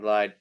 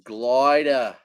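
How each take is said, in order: First: The name is said like 'glide'. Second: The name is said like 'gloida'. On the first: The speaker calls it wrong. "Rich says you're saying it wrong" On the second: The speaker calls it right. "It's Gloida"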